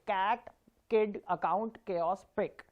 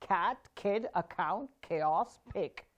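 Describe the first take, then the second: First: Put-on "Cat, kid, account, chaos, pick" with weak, unaspirated k; wrong way. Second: Put-on "cat, kid, account, chaos, pick" with aspirated k; right way. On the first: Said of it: "Now try and say it the wrong way". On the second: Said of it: "by changing the right plosives". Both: Shown as a demonstration.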